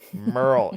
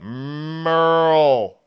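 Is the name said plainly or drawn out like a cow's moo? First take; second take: plainly; like moo. First: The name is said plainly and briefly. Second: The name is drawn out like a cow mooing.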